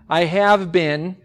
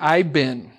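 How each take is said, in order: First: Every word is pronounced fully and separately. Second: The words are squeezed into an even shorter form.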